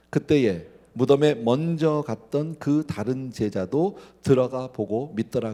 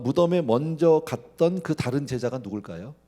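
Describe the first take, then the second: First: Measured Bible reading, each word weighed; slow scripture reading. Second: Said in the usual way. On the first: Shown as a demonstration. Pastor reading the verse aloud with the congregation, slow and measured. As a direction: read the verse slowly and deliberately. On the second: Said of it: "repeats verse as question".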